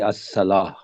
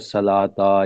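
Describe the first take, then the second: First: The word ends in a soft 'ah' sound. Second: The word ends in a full 'ata' sound. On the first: The reader stops after the word. The speaker calls it right. "हमेशा वक़्फ़ करना चाहिए जब आप रुकते हैं" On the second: The reader carries on without stopping. The speaker calls it wrong. "आप वो कभी अस्सलाता या अस्सलातो या नहीं पढ़ेगा"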